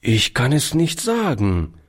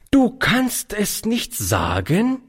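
First: Said in the usual way. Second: Slow, high reproving echo; strafend. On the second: Acted. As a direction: repeat it slowly as an outraged rebuke, rising at the end. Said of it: "wiederholte sie in strafendem Ton". (in strafendem Ton)

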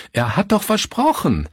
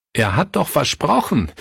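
First: Much higher, breaking with despair on doch; crying out the broken promise; desperate high cry. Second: Rising, pleading protest with a stressed doch; he can't believe the broken promise; anguished cry. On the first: Pastor Fritz from the stairs, a desperate high cry. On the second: Pastor Fritz to the household, an anguished cry. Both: A narrator's reading. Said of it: "rief Pastor Fritz".

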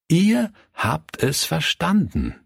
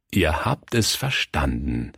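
First: "Ihr habt es verstanden" high and deliberate; emphatic repetition. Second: Said in the usual way. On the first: A narrator's reading. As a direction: stress "Ihr" in wonder, high-pitched. Pastor repeats it, marvelling.

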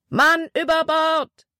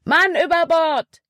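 First: High, slow alarm call; shouted alarm. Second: High, loud urgent call with a falling end; shouted alarm. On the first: A deckhand raises the alarm on the War Eagle, shouting. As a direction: call it out across the deck. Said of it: "wurde auf der War Eagle geschrien". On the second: Caleb calls out to the crew, shouting. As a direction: yell it out to the crew. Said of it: "rief Caleb". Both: A narrator's reading.

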